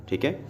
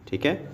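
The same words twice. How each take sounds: The two takes are said the same way.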